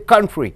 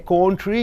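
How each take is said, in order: First: The first vowel is a short, reduced uh sound. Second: The first vowel is a full, clear vowel. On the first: The speaker calls it right. "you say country" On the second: The speaker calls it wrong. "you don't say country"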